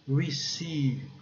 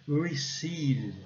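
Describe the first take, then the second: The two takes are said the same way.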